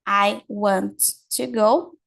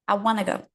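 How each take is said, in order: First: Want to is said in full, two clear words. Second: Want to is reduced and blended into wanna.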